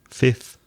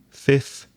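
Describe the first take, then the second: No difference in how they are said.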